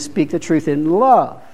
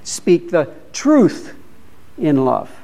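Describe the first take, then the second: First: The word love carries the main stress. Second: The word truth carries the main stress. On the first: The truth should be shared lovingly. "and then speak the truth in love" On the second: The truth itself must not be compromised. "Don't compromise"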